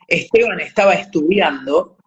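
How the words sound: The s sounds before consonants are aspirated. "Las heces acá la- las aspiramos, decimos"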